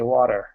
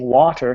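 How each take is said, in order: First: The t is softened and not crisply released. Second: The t is pronounced crisply and clearly. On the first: The speaker calls it wrong. "A lot of our consonants get softened" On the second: The speaker calls it right. "Instead of saying water"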